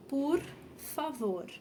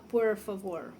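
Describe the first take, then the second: First: "por favor" slow, with a light soft R; gentle, drawn-out model of "por favor"; soft Brazilian R. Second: "por favor" with heavy English-style R; wrong-way demo, thick American R in "por favor"; gringo R. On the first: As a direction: say "por favor" slowly, easing off each R. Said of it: "Então, a gente fala". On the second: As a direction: mimic a foreigner curling both Rs in "por favor". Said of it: "A gente não fala". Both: Shown as a demonstration.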